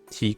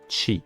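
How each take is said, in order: First: The syllable starts with a plain t sound. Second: The syllable starts with a ch sound. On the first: The speaker calls it wrong. "ça va pas se lire ti comme ça" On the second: The speaker calls it right. "C'est comme si vous ajoutez ch"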